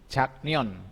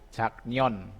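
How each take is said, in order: No difference in how they are said.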